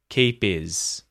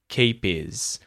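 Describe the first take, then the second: First: The h is dropped, so his sounds like is. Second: The h is dropped, so his sounds like is.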